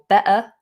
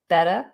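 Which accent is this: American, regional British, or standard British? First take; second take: regional British; American. First: It is said in a regional British accent. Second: The middle T sounds like a D. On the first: "in some um, regional U K accents" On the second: "American variations... drop that T... It goes more like a D"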